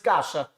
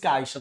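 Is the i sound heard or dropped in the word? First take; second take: dropped; heard. First: The i sound after the a is dropped. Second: The i sound after the a is pronounced. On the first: The speaker calls it right. "todo mundo diz caixa" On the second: The speaker calls it wrong. "Ninguém diz caixa"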